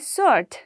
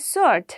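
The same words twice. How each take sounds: First: The W sound is left silent. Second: The W sound is left silent.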